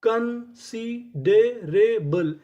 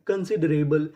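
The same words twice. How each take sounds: First: considerable stretched very slowly, syllable by syllable; slow drawn-out reveal. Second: Said in the usual way. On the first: Shown as a demonstration. Teacher revealing the full word to students, very slow. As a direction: draw out considerable slowly for the class. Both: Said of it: "तो पूरी meaning क्या बनी?".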